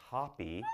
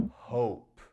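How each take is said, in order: First: Hoppy said with a short O; wrong pronunciation. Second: Hope said with a long O, stressed; hope, long O, a touch louder; right pronunciation. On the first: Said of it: "Don't say hoppy". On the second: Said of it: "We say". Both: Shown as a demonstration.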